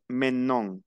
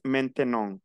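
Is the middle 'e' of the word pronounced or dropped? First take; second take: dropped; pronounced. First: The middle e is dropped, making it shorter. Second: The middle e is pronounced as a full syllable. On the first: "c'est plus court et plus rapide" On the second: "il y a des personnes qui prononcent maintenant"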